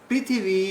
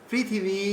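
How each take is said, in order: No difference in how they are said.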